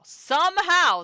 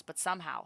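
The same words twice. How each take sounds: First: SOMEHOW loud, high and slow; emphatic repeat. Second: Said in the usual way. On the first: A narrator's reading. Player reading game story, "somehow" loud, high, drawn-out emphasis. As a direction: punch out "somehow", stretched and high.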